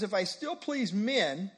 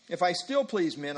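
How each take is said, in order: First: Said in the usual way. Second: "still" leaned on, falling; stress on still. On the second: Shown as a demonstration. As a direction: push the word still to mean previously. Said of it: "meaning previously he did".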